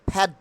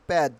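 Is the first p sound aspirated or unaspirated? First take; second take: aspirated; unaspirated. First: The p is said with a strong puff of air. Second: The p is said without a puff of air. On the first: The speaker calls it right. "ফ এর মতো করে উচ্চারণ করতে হবে" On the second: The speaker calls it wrong. "Not প্যাড"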